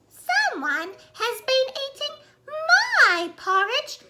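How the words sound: It is said in a little baby voice.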